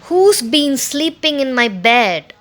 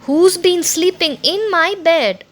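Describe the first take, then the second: First: It is said in a great big voice. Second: It is said in a middle-sized voice.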